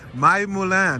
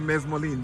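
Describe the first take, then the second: First: The word begins with the syllable 'my'. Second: The word begins with the syllable 'mes'. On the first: The speaker calls it right. "That's how you pronounce it, right?" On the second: The speaker calls it wrong. "I always want to say mesmoline"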